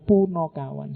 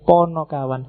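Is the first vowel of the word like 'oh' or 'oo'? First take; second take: oo; oh. First: The first vowel sounds like 'oo'. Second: The first vowel sounds like 'oh'. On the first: The speaker calls it wrong. "sering salah menyebutnya punokawan" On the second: The speaker calls it right. "sebenarnya yang pas ponokawan"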